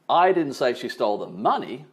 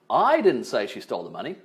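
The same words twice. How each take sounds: First: The stress is on "money". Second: The stress is on "I".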